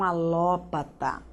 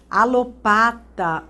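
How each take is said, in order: First: "alópata" as a-LÓ-pa-ta; tônica no LÓ. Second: "Alopata" as a-lo-PA-ta, drawn out; tônica no PA. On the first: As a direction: stress open LÓ in "alópata". ("alópata" com tônica no LÓ) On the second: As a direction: stretch PA in "Alopata". ("Alopata" com tônica no PA) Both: Shown as a demonstration. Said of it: "Tem os dois".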